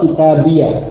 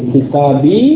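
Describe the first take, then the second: First: The word ends with an added yah sound. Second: The word ends on a long ee sound. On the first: "Jadi ya-nya di fathah" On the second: "menjadi kitabi"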